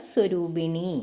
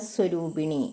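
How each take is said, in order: The two takes are said the same way.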